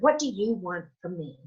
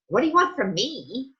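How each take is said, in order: First: It sounds sincere and genuinely curious. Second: It sounds exasperated and impatient.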